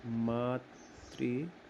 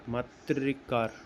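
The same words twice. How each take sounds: First: मातृकार very slow and soft, syllable by syllable; drawn out. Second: मातृकार said slowly, ending falling. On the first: Teacher spelling out the joined word, very slowly. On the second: Teacher confirming the word to students, slowly. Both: Shown as a demonstration. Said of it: "ऐसे।".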